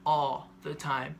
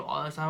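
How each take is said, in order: First: "all the time" drawn out slowly, word by word; emphatic repetition. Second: Said in the usual way. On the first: Real, not acted. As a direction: stretch ALL THE TIME to insist on it. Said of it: "when I'm telling you all the time, I mean". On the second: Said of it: "I mean".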